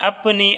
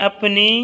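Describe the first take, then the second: Both takes have the same delivery.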